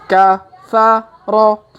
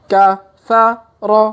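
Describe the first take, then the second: No difference in how they are said.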